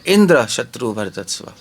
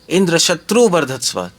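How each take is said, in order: First: The stress is on इंद्र. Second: The stress is on शत्रु.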